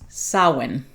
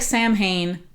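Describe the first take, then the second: First: The word is said differently from its spelling. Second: The word is sounded out letter by letter. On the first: The speaker calls it right. "pronounced Samhain" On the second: The speaker calls it wrong. "looks like Samhain"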